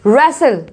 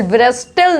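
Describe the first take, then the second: First: रेसल as res-sul, falling; silent W and T. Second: ब्रेस्टल as v-res-tel, rising; wrong, letters sounded. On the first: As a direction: drop w and t in रेसल. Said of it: "डब्ल्यू भी silent है". (रेसल में डब्ल्यू और टी silent) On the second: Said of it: "ब्रेस्टल नहीं पढ़ेंगे". (ब्रेस्टल में डब्ल्यू और टी बोलकर) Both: Shown as a demonstration.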